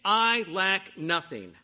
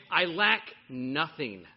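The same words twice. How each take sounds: First: "I" leaned on, slow and definitive; stress on I. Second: "lack" slow and leaned on, falling at the end; stress on lack. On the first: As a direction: punch the word "I", then let it fall. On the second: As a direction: lean on the word "lack", take it slowly. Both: Shown as a demonstration.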